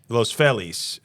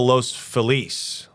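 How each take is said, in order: First: It is pronounced the local Los Angeles way. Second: It is pronounced in a non-local way.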